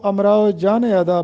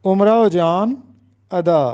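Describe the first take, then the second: First: امراؤ جان ادا said amrao jaan-e ada; غلط تلفظ. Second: امراؤ جان ادا said umrao jaan, pause, ada; درست تلفظ. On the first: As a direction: say امراؤ with 'a', linking جان to ادا with 'e'. (امراؤ جان ادا: اَمراؤ جانِ ادا) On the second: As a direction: say امراؤ with 'u', no link after جان. (امراؤ جان ادا: اُمراؤ جان، ادا) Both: Shown as a demonstration. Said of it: "جو کہ غلط ہے۔".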